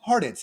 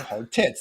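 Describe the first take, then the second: First: The name is said as one smooth word. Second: The name sounds like two words, hard tits.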